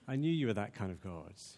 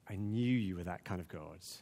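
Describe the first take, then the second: First: It is said with wonder and praise. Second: It is said with bitter resentment.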